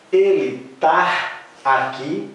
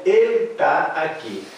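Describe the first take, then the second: First: Slow, rising "Ele tá aqui"; slow questioning demo. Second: Said in the usual way. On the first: Shown as a demonstration. Teacher to class, slow doubtful example. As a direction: ask "Ele tá aqui" slowly, as if testing it. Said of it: "Vocês poderão falar". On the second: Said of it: "como é que vocês dizem".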